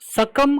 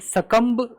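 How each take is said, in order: First: The word ends on the m sound. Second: The word ends with a b sound. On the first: The speaker calls it right. "सकम कहा जाता है, ये बी silent ही है" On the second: The speaker calls it wrong. "सकम्ब लोग नहीं कहते"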